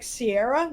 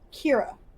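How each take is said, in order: First: The name begins with an S sound. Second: The name begins with a K sound. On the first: The speaker calls it wrong. "people are like Sierra. No, no, no" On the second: The speaker calls it right. "it's pronounced Kira"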